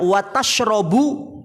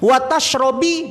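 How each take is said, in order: First: The verb ends with an u vowel. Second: The verb ends with an i vowel. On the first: Do not eat fish, but drink milk. "kalau dibaca wa tashrabu beda maknanya" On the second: Do not eat fish and do not drink milk. "Wa tashrobi beda juga maknanya"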